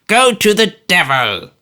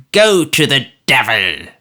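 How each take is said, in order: First: Put-on higher, louder old man's curse; Smallweed repeating the curse louder; repeated curse. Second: Put-on old man's louder, venomous curse; Smallweed telling George to go to the devil; spiteful curse. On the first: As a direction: hurl it again. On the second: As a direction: spit the curse at him.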